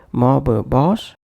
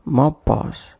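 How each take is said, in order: First: MOB BOSS with an "uh" between: "mobba boss"; extra vowel inserted. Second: MOB BOSS joined on a single firm b; one shared consonant. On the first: Teacher demonstrating a wrong pronunciation, extra vowel inserted. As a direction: add a schwa after "mob" before "boss". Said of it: "avoid bringing any other sound between". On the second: Teacher listing correct examples, one shared consonant. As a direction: flow "mob" into "boss" without a break. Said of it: "making one impactful sound for both". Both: Shown as a demonstration.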